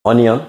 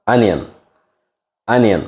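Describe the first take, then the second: First: অনিয়ন with a round "o-ni-on", higher pitched; অনিয়ন raised, as if asking; mispronunciation. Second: অনিয়ন as "an-ian", with a falling end; অনিয়ন said as the firm correction; corrected pronunciation. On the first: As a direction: say অনিয়ন as a questioning wrong version, "onion" with o sounds. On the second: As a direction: model অনিয়ন opening on an "uh" vowel. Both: Shown as a demonstration.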